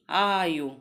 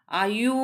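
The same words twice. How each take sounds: First: आयु with long आ and short final उ; correct pronunciation demo. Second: आयु with the final ऊ stretched long; wrong pronunciation demo. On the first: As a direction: model आयु, falling onto a short ending. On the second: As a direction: drag out the end of आयु as a mistake. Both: Shown as a demonstration. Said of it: "आयु नहीं".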